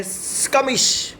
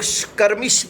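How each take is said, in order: First: स्कमिश with no r sounded; slow, drawn-out स्कमिश without an r; r-less pronunciation. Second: स्कर्मिश with the r sounded; स्कर्मिश, r pronounced in the first syllable; alternative pronunciation. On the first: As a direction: say स्कमिश slowly, the r left silent. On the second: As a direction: say स्कर्मिश with an audible r before the m. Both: Shown as a demonstration. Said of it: "या कई लोग स्कर्मिश भी बोल लेते हैं".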